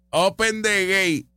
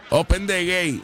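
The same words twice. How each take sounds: First: Drawn-out, slower imitation of Open the gate; slow mocking quote. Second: Mocking quote. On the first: Host mocking a politician's famous phrase, slow and teasing. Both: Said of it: "Del Open the gate de Juan Dalmau".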